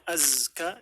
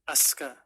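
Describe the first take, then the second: First: The middle consonant is a voiced z. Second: The middle consonant is a voiceless s. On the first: The speaker calls it right. "namanya Azka" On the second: The speaker calls it wrong. "dipanggilnya Aska ... ini adalah kesalahan"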